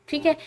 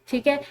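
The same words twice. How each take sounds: Both takes have the same delivery.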